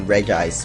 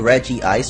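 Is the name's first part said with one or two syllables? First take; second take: one; two. First: The first part has one syllable. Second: The first part has two syllables. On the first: "it looks like it says Reg Ice" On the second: "I just like saying Reggie Ice"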